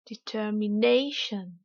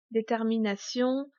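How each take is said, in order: First: "determination" slow in English, NAY drawn out; slow teacher's "determination", peak on NAY; exaggerated English stress. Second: Said in the usual way. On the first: Shown as a demonstration. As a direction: swell on NAY in "determination", light "shun". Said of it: "je vais délibérément exagérer". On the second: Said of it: "uniquement prononcés en français".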